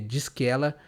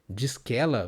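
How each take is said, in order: First: The three words are said as separate words. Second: The three words run together as one word.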